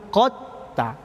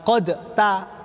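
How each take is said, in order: First: The d merges into the following t. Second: The d is released with a bounce. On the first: The speaker calls it right. "tapi qad ta" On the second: The speaker calls it wrong. "bukan qad ta"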